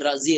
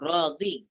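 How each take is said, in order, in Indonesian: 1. Konsonan di tengah itu bunyi z. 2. Konsonan di tengah itu bunyi dh. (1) "Dalam bahasa kita Razi" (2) "Dia nak kata Radhi tu"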